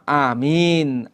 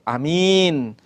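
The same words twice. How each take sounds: First: The first vowel is held long. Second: The first vowel is kept short. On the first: "A-nya itu satu alif" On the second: "atau A-nya itu uh, pendek"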